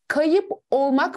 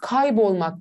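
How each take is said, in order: First: The vowel is kept, as two separate words. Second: The vowel is dropped, joined into one word. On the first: "Kayıp olmak mı diyoruz" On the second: "Kaybolmak diyoruz"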